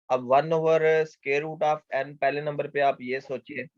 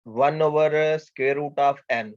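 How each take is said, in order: First: Said in the usual way. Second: Very slow, each word of one over square root of n spaced out; slow dictation. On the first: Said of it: "teacher repeats expression while explaining". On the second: Shown as a demonstration. Teacher to students writing down the example, slow dictation. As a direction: spell out the expression word by word. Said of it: "teacher dictates next example slowly".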